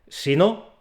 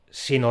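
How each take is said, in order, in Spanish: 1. La sílaba 'no' lleva su propio acento. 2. La sílaba 'no' es átona, se apoya hacia delante. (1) "ese golpe de voz recae en la sílaba no de si no" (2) "se pronuncia sin golpe de voz propio y tiene que apoyarse en la palabra siguiente"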